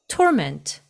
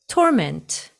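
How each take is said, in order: The two takes are said the same way.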